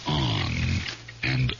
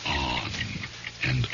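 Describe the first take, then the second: No difference in how they are said.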